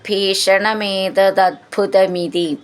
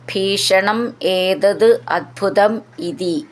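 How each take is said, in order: First: The words are run together into one form. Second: The words are said separately, one by one.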